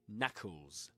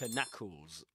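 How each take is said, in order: First: The K at the start is silent. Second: The K at the start is pronounced. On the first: The speaker calls it right. "You just say knuckles. The K there is, I mean, it's not even there" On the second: The speaker calls it wrong. "You don't say knuckles or something like that"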